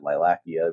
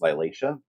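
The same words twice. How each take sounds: First: The start sounds like the word lilac. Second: The start does not sound like lilac. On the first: The name refers to lilacs. "I like the way that Stephanie was pronouncing it, ... because it's lilacs" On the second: This is the standard pronunciation. "I guess it's really pronounced Lilacea"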